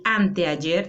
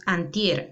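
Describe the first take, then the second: First: Said in the usual way. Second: "antier" squeezed into two syllables, an-TIER; common contraction. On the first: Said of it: "en vez de decir anteayer". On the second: Shown as a demonstration. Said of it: "decimos antier".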